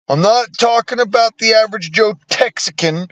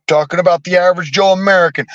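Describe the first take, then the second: First: Texican set apart with a slight lift as the wrong word; stress on Texican. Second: Fast, with Joe American carrying the weight; stress on American. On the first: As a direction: lean on Texican to rule it out. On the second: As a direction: rush through and land on Joe American as the right word. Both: Shown as a demonstration.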